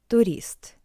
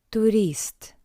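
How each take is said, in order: The two takes are said the same way.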